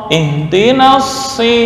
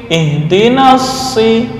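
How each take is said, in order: Both takes have the same delivery.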